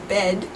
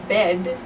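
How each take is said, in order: First: The word ends with a voiced D sound. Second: The word ends with a voiced D sound.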